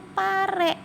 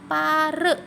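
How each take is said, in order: First: The final vowel is a clear, open e sound. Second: The final vowel is a weak schwa sound. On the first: The speaker calls it right. "Dikasih taleng begini atau curug begini, nanti dibacanya pare" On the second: The speaker calls it wrong. "bukan pare"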